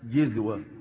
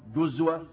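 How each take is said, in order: First: The first syllable has the vowel i. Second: The first syllable has the vowel u. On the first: "وبالكسر" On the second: "وبالضم"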